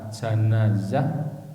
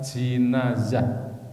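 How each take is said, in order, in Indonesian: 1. Vokal pertama adalah bunyi 'a'. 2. Vokal pertama adalah bunyi 'i'. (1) "mengfathahkan jim" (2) "mengkasrohkan jim"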